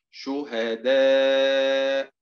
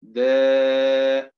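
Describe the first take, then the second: First: شهداء stretched slowly, each syllable drawn out; slow drill word. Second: شهداء called out louder, syllable by syllable; stressed drill word. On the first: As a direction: draw out شهداء slowly for the class. (نطق شهداء ببطء ووضوح) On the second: (نطق شهداء بصوت أعلى) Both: Shown as a demonstration. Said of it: "teacher drills word pronunciation".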